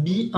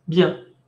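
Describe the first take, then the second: First: "bien" broken into two syllables, bi-an; wrong bien. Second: "bien" in one nasal syllable; correct bien. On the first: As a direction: separate the i from the nasal in "bien". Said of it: "no es bien". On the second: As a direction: run "bien" together as a single syllable. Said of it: "es bien". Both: Shown as a demonstration.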